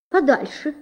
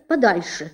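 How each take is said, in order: First: Higher shooing. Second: Said in the usual way. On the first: A narrator's reading. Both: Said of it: "сказала подвязка".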